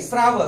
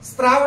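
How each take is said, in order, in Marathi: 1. r च्या आधी t आवाज येत नाही. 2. r च्या आधी t आवाज येतो. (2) "स्त्राव नाही"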